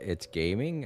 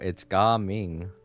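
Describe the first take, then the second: First: The name sounds like the English word gaming. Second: The name is said unlike the English word gaming. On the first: This is how the name looks when read. The speaker calls it wrong. "I know the way it looks like. Even I thought" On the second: This is how the name is actually said. The speaker calls it right. "and then I realized, oh no"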